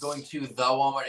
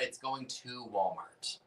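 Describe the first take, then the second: First: "the Walmart" with the article sounded out; added "the" before Walmart. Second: Said in the usual way. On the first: Shown as a demonstration. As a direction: make "the" audible before "Walmart".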